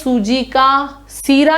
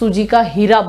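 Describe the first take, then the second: First: The last word begins with an s sound. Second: The last word begins with an h sound. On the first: "वैसे होता है सूजी का सीरा" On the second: "स को ह में उच्चारित कर देते हैं"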